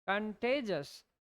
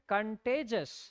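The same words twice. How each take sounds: The two takes are said the same way.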